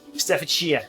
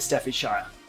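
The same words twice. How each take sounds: First: The word's ending sounds like the word shear. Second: The word is said in a posh-sounding way. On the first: "as in what they do to a sheep" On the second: "I sound very posh saying that"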